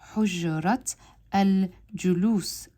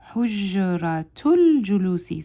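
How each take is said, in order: First: The words are separated by a pause. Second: The words run together without a pause. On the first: "I'm pausing at the end of each one" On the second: "I need to learn how to blend the two sounds"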